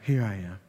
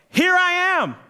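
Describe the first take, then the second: First: It is said hesitantly, without conviction. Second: It is said eagerly, with exclamatory force.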